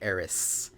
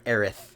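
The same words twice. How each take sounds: First: The name ends with an s sound. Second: The name ends with a th sound. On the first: The speaker calls it wrong. "instead of Aerith" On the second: The speaker calls it right. "let's everybody everybody call her Aerith from now on"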